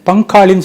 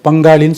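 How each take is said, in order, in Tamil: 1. முதல் மெய்யெழுத்து கடினமான, ஒலியற்ற p. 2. முதல் மெய்யெழுத்து மென்மையான, ஒலியுள்ள b. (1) "சொல்றது இல்லை" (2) "சொல்லுவோம்"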